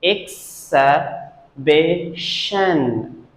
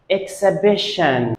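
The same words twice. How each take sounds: First: EXHIBITION split as ek, suh, bish, un; very slow exhibition, a pause between syllables. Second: Said in the usual way. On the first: Shown as a demonstration. Teacher shows the two schwas, syllable by syllable. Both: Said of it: "There are two schwa sounds here".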